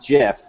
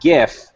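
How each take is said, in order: First: The word begins with a J sound. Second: The word begins with a hard G sound. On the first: The speaker calls it wrong. "It's not Jaffix" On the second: The speaker calls it right. "It's graphics"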